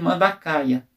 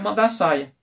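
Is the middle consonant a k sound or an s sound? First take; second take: k sound; s sound. First: The middle consonant is a k sound. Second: The middle consonant is an s sound. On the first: This is the Latinized scientific form. The speaker calls it wrong. "Ele foi e tirou só o tio, transformou em mandacaia" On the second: This is the name people in Brazil use. The speaker calls it right. "O pessoal falaram mandaçaia"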